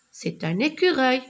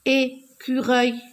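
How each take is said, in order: First: Said in the usual way. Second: "Écureuil" split into separate beats, é-cu-reuil; syllable by syllable. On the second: Shown as a demonstration. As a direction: clap out each syllable of "Écureuil". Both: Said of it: "je frappe les syllabes".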